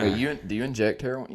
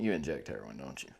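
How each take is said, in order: First: Said in the usual way. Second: Much softer, mumbled under the breath; mumbled aside. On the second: Pretend. Friend teasing his buddy, mumbled much softer. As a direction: drop it to a murmur, "You inject heroin" half swallowed.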